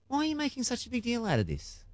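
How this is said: It is asked in a curious, genuine tone.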